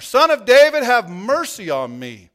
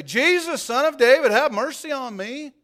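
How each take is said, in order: First: Very loud, higher beggar's cry, slowing on mercy; crying out all the more. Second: High, loud beggar's plea; crying out. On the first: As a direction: shout it louder still over the crowd. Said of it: "he kept crying out all the more". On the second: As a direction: cry out to Jesus from the roadside, high and loud. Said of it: "he began to cry out and say". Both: A narrator's reading.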